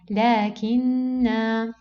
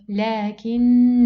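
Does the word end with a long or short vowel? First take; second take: long; short. First: The word ends with a long final vowel. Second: The word ends with a short final vowel. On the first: The reciter stops on this word. "in case of stopping on the word, I cancel uh, the effect of the up long zero and I pronounce the letter normally" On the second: The reciter continues into the next word. "in case of um, continuing in recitation... I have to uh, cancel the letter"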